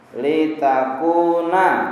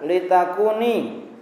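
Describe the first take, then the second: First: The word ends with an 'a' vowel. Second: The word ends with an 'i' vowel. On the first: The speaker calls it right. "Man sub litaku na, dibaca man sub" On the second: The speaker calls it wrong. "jangan antum baca litakuni"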